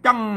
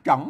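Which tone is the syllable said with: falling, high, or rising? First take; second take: falling; rising. First: The syllable is said with a falling tone. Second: The syllable is said with a rising tone. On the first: "เสียงโทพิเศษ" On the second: "เสียงจัตวา"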